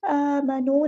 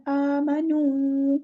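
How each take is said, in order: First: آمَنُوا with lips not rounded on نُ; wrong take, flat u in آمَنُوا; unrounded u, wrong. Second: آمَنُوا slow with lips fully rounded on نُ; right take, rounded long u. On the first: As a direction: demonstrate the unrounded ending to avoid. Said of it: "آمَنُوا نہیں کرنا". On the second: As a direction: round the lips well on نُوا. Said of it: "پیش ہم ہونٹوں کو گول کرنے سے ادا کرتے ہیں". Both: Shown as a demonstration.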